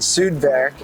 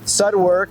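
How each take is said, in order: First: The name is said with German-style vowels. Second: The name is said with English-style vowels.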